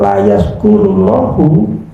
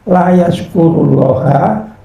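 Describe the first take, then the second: First: The final vowel of Allah is 'u'. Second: The final vowel of Allah is 'a'. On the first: God does not accept the thanks. "Allah tidak menerima syukur" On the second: A servant does not give thanks to God. "dibaca nasab"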